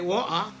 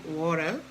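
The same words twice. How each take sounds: First: It is said in a British accent. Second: It is said in an American accent.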